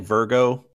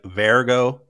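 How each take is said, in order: First: The name sounds like the zodiac sign. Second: The name sounds unlike the zodiac sign. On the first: This is the usual way of saying the name. "they don't say Virgo?" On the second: This is the way the show says the name. "They say, like, Vergo?"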